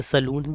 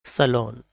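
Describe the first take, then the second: First: सलून with a long "oo" ending; common mispronunciation. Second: सैलून as "suh-LON", with an o ending; correct pronunciation. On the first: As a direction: say सलून as "sa-loon". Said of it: "भी बोल देते हैं". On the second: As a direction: say सैलून with a weak first vowel and long o. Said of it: "right pronunciation है". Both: Shown as a demonstration.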